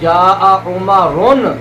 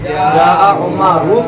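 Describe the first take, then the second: First: The name ends with an added n sound. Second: The name ends on a bare vowel. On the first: The speaker calls it wrong. "ये नहीं पढ़ रहे हो" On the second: The speaker calls it right. "बल्कि जा उमरु पढ़ रहे हो"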